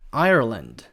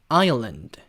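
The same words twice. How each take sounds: First: It has an American accent with a curled r. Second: It has a British accent without a curled r. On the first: "이 아일랜드를 미국식으로 발음을 하면요" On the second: "영국식은 다행히게도 혀꼬는 그런 게 없으니까"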